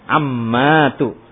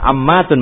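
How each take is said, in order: First: The word ends in a vowel, no n. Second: The word ends with an n sound. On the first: The speaker calls it right. "kita tegaskan lagi itu ammatu gitu" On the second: The speaker calls it wrong. "itu jangan ammatun"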